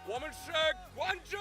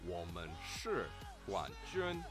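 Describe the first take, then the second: First: The phrase is shouted loudly with excitement. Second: The phrase is said calmly at normal volume.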